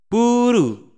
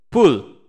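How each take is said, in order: First: It ends with an r sound plus a u vowel. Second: It ends with an l sound and no vowel. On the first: "orang Jepang belum bisa mengucapkan pool karena ada lafalan L, jadi dia mengucapkan pool itu menjadi puru" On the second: "ada lafalan L"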